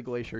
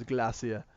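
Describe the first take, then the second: First: Said in the usual way. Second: "glacier" said GLASS-ee-uh; "glacier" as GLASS-ee-uh, British; British pronunciation of glacier. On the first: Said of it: "he doesn't say glacier". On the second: Shown as a demonstration. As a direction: say "glacier" the British way, short a and no final r. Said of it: "he says glacier".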